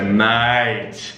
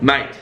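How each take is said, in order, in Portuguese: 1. A palavra soa calorosa e carinhosa. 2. A palavra soa seca, curta e irritada. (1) "a really strong feeling towards someone" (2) "if you're quite angry with someone, it would be really short"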